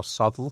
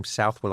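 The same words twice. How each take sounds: First: Southwell squashed into SUTH-ull; alternative pronunciation. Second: Southwell said as spelt, SOUTH-well; pronunciation demo. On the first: Guest showing host the other reading, Southwell as SUTH-ull. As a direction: say Southwell with short "suth" and swallowed "well". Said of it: "Southwell or Southwell". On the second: Guest showing host the disputed name, Southwell as SOUTH-well. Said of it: "whether you pronounce his name". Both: Shown as a demonstration.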